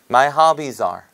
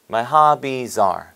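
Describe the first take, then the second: No difference in how they are said.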